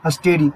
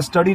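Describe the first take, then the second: First: "स्टेडी" with an 'e' vowel, not study; सही उच्चारण. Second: "स्टडी" with a short 'a', like English study; गलत उच्चारण. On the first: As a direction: say "स्टेडी" with 'ste' as in step. ("स्टेडी" में 'ए' की मात्रा, सही उच्चारण) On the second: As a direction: say "स्टडी", first vowel as in 'cup'. ("स्टडी" छोटे 'अ' के साथ, गलत उच्चारण) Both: Shown as a demonstration. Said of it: "इसे स्टडी नहीं बोलेंगे".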